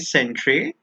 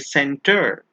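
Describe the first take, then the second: First: The ending is said like the letters R-E. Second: The ending is said with a plain 'er' sound. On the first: The speaker calls it wrong. "We don't say centre" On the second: The speaker calls it right. "we say center"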